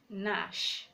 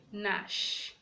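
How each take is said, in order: First: The word starts with an n sound only. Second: The same.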